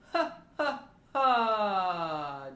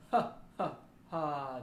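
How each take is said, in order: First: Loud, much higher ha pulses. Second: Short low ha pulses. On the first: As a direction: fire has high from the ribs. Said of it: "our ha-has up in the range". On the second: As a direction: punch low has from the belly. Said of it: "First the low". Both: Shown as a demonstration.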